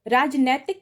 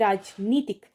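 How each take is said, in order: First: The middle vowel is 'ai'. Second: The middle vowel is 'ee'. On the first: The speaker calls it wrong. "न होके" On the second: The speaker calls it right. "सही शब्द है राजनीतिक"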